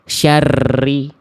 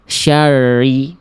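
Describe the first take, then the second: First: The r is trilled excessively. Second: The r has no trill at all. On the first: "getarannya berlebihan" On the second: "terlampau samar. Getarannya malah nggak ada"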